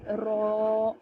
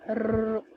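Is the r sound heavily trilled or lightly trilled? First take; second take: lightly; heavily. First: The r has only a slight vibration. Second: The r has a strong, rolling vibration. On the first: The speaker calls it right. "थोड़ा सा वाइब्रेशन का जो साउंड है वो मेरी वॉइस में पाया जा रहा है" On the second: The speaker calls it wrong. "वाइब्रेशन का साउंड र इस तरीके करके बहुत ज़्यादा नहीं होना चाहिए"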